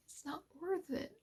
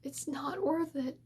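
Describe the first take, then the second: First: It's not worth it, dropped soft and quiet; soft, near-breaking. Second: Slower, with worth leaned on and falling; slow emphasis. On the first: To struggling creators, softer and quiet. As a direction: say it softly, almost to yourself. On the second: To struggling creators, slow and firm on worth. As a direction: press on worth and let it fall, slowly. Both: Real, not acted. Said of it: "And I just wanted to say".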